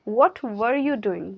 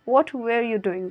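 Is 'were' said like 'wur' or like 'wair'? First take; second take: wur; wair. First: 'Were' is said with a short 'wur' sound. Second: 'Were' is said with a 'wair' sound.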